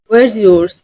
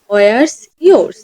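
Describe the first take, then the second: First: The two words merge with a changed linking sound. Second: The two words are said separately, without sound change. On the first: The speaker calls it right. "এভাবে বলতেছে ওয়ার্স ইয়োর্স, sound change হয়ে গেছে" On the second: The speaker calls it wrong. "এখানে আমরা বলতেছি না ওয়ার্স ইয়োর্স"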